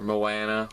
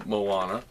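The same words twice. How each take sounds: First: Moana with a short flat "a" as in "can"; alternate pronunciation. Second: Moana with a broad "ah" middle; first pronunciation. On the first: Vlogger offering another way to say it, short-a pronunciation. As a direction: say Moana as mo-ANN-a. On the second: Vlogger unsure of the name, broad-ah pronunciation. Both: Shown as a demonstration. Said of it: "however you wanna call it".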